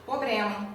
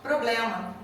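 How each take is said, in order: First: The word is said in a colloquial pronunciation. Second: The word is said in its standard pronunciation. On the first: This form is used in some social groups. "nós falamos problema" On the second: This form is not used in some social groups. "em alguns grupos nós não falamos problema"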